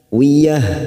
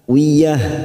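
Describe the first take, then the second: No difference in how they are said.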